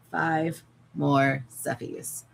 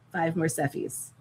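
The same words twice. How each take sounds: First: "Five more Seffies" stretched slowly, "more" drawn long. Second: Said in the usual way. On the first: Real, not acted. Counting her remaining plushies to viewers, slow and drawn out. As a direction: drag the count out wearily.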